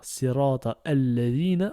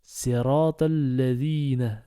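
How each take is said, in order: First: Sirata alladhina with the alif of alladhina sounded; sirata, then a-lladhina; wrong reading. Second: Sirata lladhina joined, alif silent; sirata-lladhina as one flow; correct linked reading. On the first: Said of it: "On va pas dire". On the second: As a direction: run sirata straight into lladhina. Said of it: "on va dire". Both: Shown as a demonstration.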